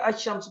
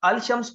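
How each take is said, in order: First: The L is silent; the sh sound is doubled. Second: The article's L sound is clearly pronounced. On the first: The speaker calls it right. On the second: The speaker calls it wrong.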